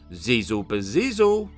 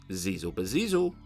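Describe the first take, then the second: First: It is called out a little louder. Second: It is said at a normal, softer volume.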